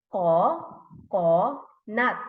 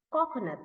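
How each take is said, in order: First: "Ko, ko, nut" as three separate beats; syllable by syllable. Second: Said in the usual way. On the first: Shown as a demonstration. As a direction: pause after each syllable of "Ko, ko, nut". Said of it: "Three syllables". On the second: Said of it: "if we're going to put together".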